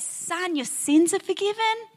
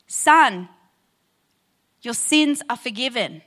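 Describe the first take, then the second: First: Higher, anticlimactic replay of the words; deflated echo. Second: Grave, measured pronouncement of forgiveness; solemn Jesus quote. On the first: Retold or imitated. Pastor replaying Jesus' words as a letdown, higher and deflated. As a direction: repeat it as the disappointing answer. And instead you get. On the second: Acted. Pastor voicing Jesus to the paralyzed man, solemn and measured. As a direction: let the words land with weight.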